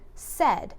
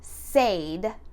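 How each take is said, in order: First: The vowel is a short 'eh' sound. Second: The vowel is a long 'ay' sound. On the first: The speaker calls it right. "but we're going to say said" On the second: The speaker calls it wrong. "we don't say said, right? That would be that hard A"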